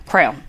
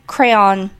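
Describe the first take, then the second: First: "crown" for crayon, one low syllable. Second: "crayon" as CRAY-on; full two-syllable crayon. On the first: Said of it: "some people say, like, crown". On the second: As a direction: give "crayon" both syllables, cray then on. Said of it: "It's crayon". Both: Shown as a demonstration.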